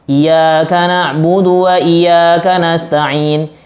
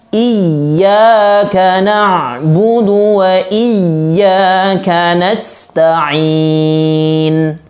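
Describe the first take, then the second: First: The y sound in iyyaka is single, not stressed. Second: The y sound in iyyaka is doubled and pressed. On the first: The speaker calls it wrong. "itu tidak ditasydidkan" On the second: The speaker calls it right. "harus tasydid dan harus masuk dan harus ditekankan"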